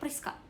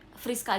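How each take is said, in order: First: The name begins with a P sound. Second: The name begins with an F sound.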